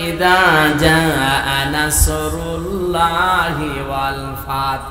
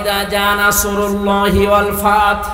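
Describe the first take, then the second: First: The L in Allah is light and thin. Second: The L in Allah is heavy and full. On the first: The speaker calls it wrong. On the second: The speaker calls it right.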